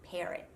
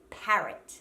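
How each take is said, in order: First: The first vowel slides toward an E sound. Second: The first vowel stays a short A sound. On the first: The speaker calls it wrong. "when said with an American dialect, comes out like parrot" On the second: The speaker calls it right. "make sure that it's not sliding into an E sound"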